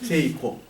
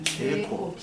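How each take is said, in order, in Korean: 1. 첫 모음은 'ei' 이중모음으로 발음해요. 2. 첫 모음은 긴 'e'로 발음해요. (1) "히라가나로 이렇게 씁니다" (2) "근데 사실은 이게 세코라고 그냥 씁니다"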